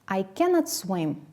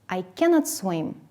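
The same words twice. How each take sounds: First: The negative is said as full two-syllable cannot. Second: The same.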